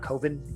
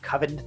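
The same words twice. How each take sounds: First: The first vowel is a long 'oh' sound. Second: The first vowel is a short 'uh' sound. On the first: The speaker calls it wrong. "not Coven, even though it's got an O" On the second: The speaker calls it right. "That's how you pronounce it, by the way. I had to look it up"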